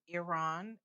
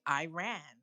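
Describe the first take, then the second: First: The name has a non-Americanized pronunciation. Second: The name has an Americanized pronunciation. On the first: The speaker calls it right. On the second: The speaker calls it wrong.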